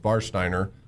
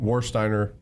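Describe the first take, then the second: First: The name starts with a V sound. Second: The name starts with an English W sound. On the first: This is how it is said in German. The speaker calls it right. "but it's Warsteiner. So the V is, the W is a V" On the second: This is how it is said in America. The speaker calls it wrong. "we call it Warsteiner here in, in America"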